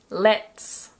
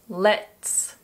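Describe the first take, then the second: First: It is said as one contracted syllable. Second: It is said as one contracted syllable.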